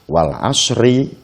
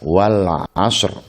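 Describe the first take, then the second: First: The phrase ends with an 'i' vowel. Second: The phrase ends on the consonant r. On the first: The reciter continues without stopping. "Biasanya kita membacanya" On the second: The reciter stops on this word. "kalau kita membacanya dengan waqaf"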